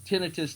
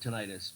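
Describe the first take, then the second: First: The stress is on the first syllable. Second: The stress is on the second syllable. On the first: "tinnitus though is, is just as common a, a pronunciation" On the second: "I always call it tinnitus because tonight it's us"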